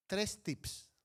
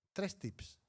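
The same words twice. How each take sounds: The two takes are said the same way.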